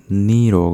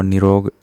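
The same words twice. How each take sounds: First: निरोग with a long stretched "nee", as "neerog"; correct long vowel. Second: निरोग with a short first "i"; wrong short vowel. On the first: Teacher correcting, निरोग with drawn-out "nee". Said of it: "बड़ा ई लगता है". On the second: Teacher showing the error, निरोग with short "ni". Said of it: "नहीं होता". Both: Shown as a demonstration.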